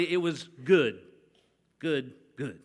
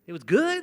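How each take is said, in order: First: Good, good, good repeated for emphasis; emphatic repetition. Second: Good said flat, no emphasis; just good, nothing more; plain good. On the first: Preacher showing how emphasis on good would sound, repeated. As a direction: stack up the goods. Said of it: "if you were really trying to emphasize". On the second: Preacher reading God's verdict on creation, plainly. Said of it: "not awesome, not great". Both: Shown as a demonstration.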